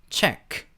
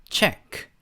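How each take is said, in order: The two takes are said the same way.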